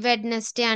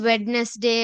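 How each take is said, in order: First: The middle d is pronounced, with three syllables. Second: The middle d is pronounced, with three syllables.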